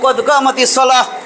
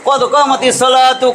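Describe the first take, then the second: First: The last word ends with an 'h' sound. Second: The last word ends with a 'tu' sound. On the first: The phrase ends with a stop. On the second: The phrase continues without stopping.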